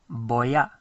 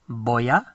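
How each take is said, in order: Both takes have the same delivery.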